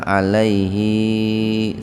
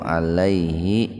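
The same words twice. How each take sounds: First: The final hi vowel is drawn out long. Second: The final hi vowel is short. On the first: The speaker calls it wrong. "Makanya sering yang salah tuh di sini nih. Sering kali dibaca alaihi" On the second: The speaker calls it right. "hi-nya dibaca pendek nih"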